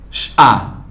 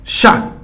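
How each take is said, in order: First: "Chá" as a drawn sh, then a; sons separados. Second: Said in the usual way. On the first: Shown as a demonstration. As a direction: sound out "Chá" phoneme by phoneme. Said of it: "ele teve um som de X". ("Chá" som por som: x, á) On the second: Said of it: "cada letra teve sua pronúncia".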